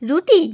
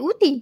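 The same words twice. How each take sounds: First: Said in the usual way. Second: Put-on উটি with the র dropped, the way the child says রুটি; child's mispronunciation. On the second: Shown as a demonstration. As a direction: say উটি the toddler's way, without the r. (রুটিকে শিশুর মতো উটি বলা, র ছাড়া) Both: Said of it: "উটি বলে".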